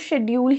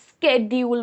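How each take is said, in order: First: It is said in an Indian English accent. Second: It is said in an American accent, with 'sk'. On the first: "Indian English pronunciation में शेड्यूल को शेड्यूल ही बोला जाता है" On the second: "American English में इससे स्केड्यूल बोलते हैं"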